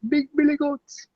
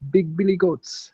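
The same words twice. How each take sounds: First: It is said in a Jamaican accent. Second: It is said in the speaker's plain accent.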